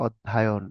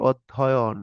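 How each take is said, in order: First: অধ্যায়ন with an added long a sound; slow wrong form অধ্যায়ন; mispronounced word. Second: Said in the usual way. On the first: Shown as a demonstration. Teacher shows students the wrong form অধ্যায়ন, slowly. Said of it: "বলে অনেকে অধ্যায়ন". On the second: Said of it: "বলে অনেকে".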